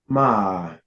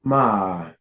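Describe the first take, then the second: First: The pitch dips down and then rises. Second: The pitch dips down and then rises.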